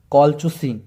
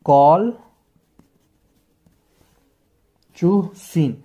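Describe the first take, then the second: First: Said in the usual way. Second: कॉलचुसिन broken very slowly into kol, chu, seen; long pauses between the syllables of कॉलचुसिन; drawn-out teaching demo of कॉलचुसिन, kol... chu... seen. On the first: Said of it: "तो इसका pronunciation है". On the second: Shown as a demonstration. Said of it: "इसका ऐसे pronunciation होता है".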